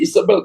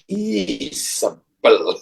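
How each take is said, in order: First: The name is said with its ordinary stress. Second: The name is said with a different, heavier stress. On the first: The name is just a plain name. The speaker calls it wrong. "bukan lagi Isabel" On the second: The person always looks for trouble. The speaker calls it right. "bacanya ada tekanan berbeda"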